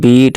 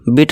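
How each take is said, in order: First: The vowel is stretched out long. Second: The vowel is said short and clipped. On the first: The speaker calls it right. "Long sound खींच रहे हैं ई को" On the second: The speaker calls it wrong. "नहीं"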